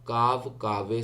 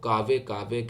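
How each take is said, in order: First: Only the second word ends with an 'e' vowel. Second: Both words end with an 'e' vowel. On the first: The speaker calls it right. "काव कावे सही है" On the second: The speaker calls it wrong. "कुछ लोग कावे कावे कहते हैं जो कि गलत है"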